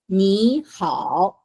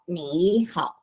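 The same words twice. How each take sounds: First: The first syllable has a rising tone. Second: The first syllable has a dipping tone. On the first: The speaker calls it right. "you say ni in as a second tone" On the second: The speaker calls it wrong.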